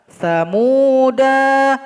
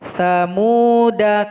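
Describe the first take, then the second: First: The final vowel is drawn out long. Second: The final vowel is kept short. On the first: The speaker calls it wrong. "Salah kalau dibaca samuda, nggak boleh" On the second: The speaker calls it right. "Yang betulnya samuda kafaru"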